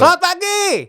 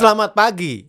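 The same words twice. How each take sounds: First: It is shouted loudly. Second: It is firm and strong without shouting. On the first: The speaker calls it wrong. "itu teriak" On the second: The speaker calls it right. "itu nggak berteriak. Tapi ada tenaganya"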